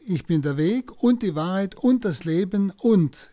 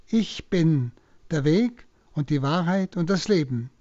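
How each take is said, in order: First: Each „und“ leaned on between the phrases; stress on und. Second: Said in the usual way. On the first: Shown as a demonstration. Priest showing how the „und“ strengthens Jesus' words, emphatic. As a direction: lean into every „und“ in the quote. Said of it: "durch die wiederholenden". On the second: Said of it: "durch die wiederholenden und, und, und".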